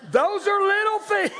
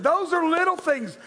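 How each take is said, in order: First: Very high, loud comic squeal; high mock outcry. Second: Raised, earnest preaching voice; emphatic preaching. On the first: Preacher exclaiming over petty complaints, high comic outcry. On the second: Real, not acted. Preacher telling the congregation to listen, emphatic and earnest. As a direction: press the point home, high but controlled. Restates it earnestly after comic outburst.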